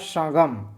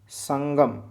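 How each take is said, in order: First: The first vowel is nasalized without a full n. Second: The first vowel is followed by a full n. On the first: The speaker calls it wrong. "गलत बोल रहा हूँ, यहाँ लिखा है" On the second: The speaker calls it right. "संगम होना चाहिए"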